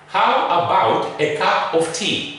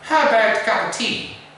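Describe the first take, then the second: First: The small words have full, unreduced vowels. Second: The small words are reduced to schwa. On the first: The speaker calls it wrong. "This is the wrong pronunciation" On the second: The speaker calls it right.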